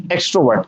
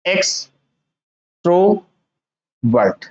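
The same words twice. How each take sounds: First: Said in the usual way. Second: एक्सट्रोवर्ट very slow, as ex, tro, vert; divided into parts. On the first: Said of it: "तो क्या होगा ये?". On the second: Shown as a demonstration. Teacher showing how to read by parts, एक्सट्रोवर्ट very slowly divided. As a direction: leave long gaps inside एक्सट्रोवर्ट: ex, tro, vert. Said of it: "parts में divide करके पढ़ोगे तो कैसे पढ़ोगे".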